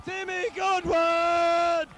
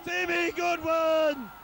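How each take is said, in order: Both takes have the same delivery.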